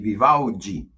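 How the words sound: The name is said with Brazilian pronunciation. The speaker calls it wrong. "chamam ... de Vivaldi aqui no Brasil"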